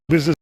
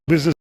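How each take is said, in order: Both takes have the same delivery.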